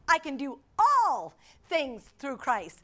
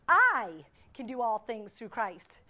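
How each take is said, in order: First: The stress falls on the word "all". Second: The stress falls on the word "I".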